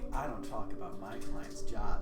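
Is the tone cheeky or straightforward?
cheeky. It is said with a playful, teasing tone. "or like a cheeky"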